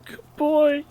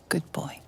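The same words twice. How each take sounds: First: Echoed whisper. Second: Soft unvoiced whisper. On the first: Retold or imitated. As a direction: whisper it back, lighter. Streamer echoes tombstone. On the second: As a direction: breathe it, no voice. Tombstone whisper for dog.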